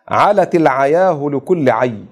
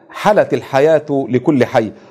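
First: The key words begin with an ayn sound. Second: The key words begin with an h sound. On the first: This is the Hudhayl dialect form. "لهجة الفحفحة في لغة هذيل" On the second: This is the Quraysh form. "في لهجة قريش"

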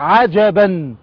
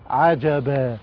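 First: The word ends with an n sound. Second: The word ends with a long a vowel. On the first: The reader continues without stopping. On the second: The reader stops on the word.

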